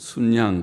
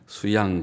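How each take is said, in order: First: It is said sun-yang, with an added n. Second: It is said su-yang, with no n sound. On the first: The speaker calls it right. "순양 그렇게 읽는 것이 표준 말이라고 하니까" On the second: The speaker calls it wrong. "수양 그래도 되지만"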